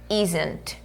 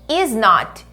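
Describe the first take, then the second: First: It is said as one contracted word. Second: It is said as two full words. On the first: "ele vira isn't" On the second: "o is not"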